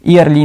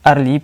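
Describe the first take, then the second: First: It starts with an 'ee-ya' sound. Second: It starts with a plain 'er' sound. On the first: The speaker calls it wrong. "नहीं पढ़ेंगे" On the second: The speaker calls it right. "बल्कि अर्ली पढ़ते हैं"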